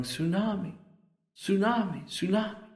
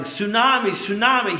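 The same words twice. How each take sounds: First: Soft, higher-pitched echo of tearful cries; imitated weeping yell. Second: Louder, high retold warning shout; imitated shouting. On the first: Preacher as the weeping man after the wave, weeping yell. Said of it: "He's weeping, yelling". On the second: Preacher imitating the man who won't stop, shouting. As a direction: imitate urgent shouts of alarm, pitched high. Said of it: "he doesn't stop shouting".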